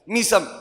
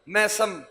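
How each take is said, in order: First: The first vowel sounds like 'ee'. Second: The first vowel sounds like 'ay'. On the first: The speaker calls it right. "मीम कसरा के साथ, जेर के साथ" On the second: The speaker calls it wrong. "मैसम गलत pronunciation है"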